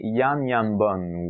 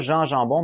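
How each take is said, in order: First: The name is pronounced with Flemish sounds. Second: The name is pronounced with French sounds. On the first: The speaker calls it right. "mais bien Jan Janbon ou quelque chose comme ça" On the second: The speaker calls it wrong. "il se prononce pas Jean Jambon"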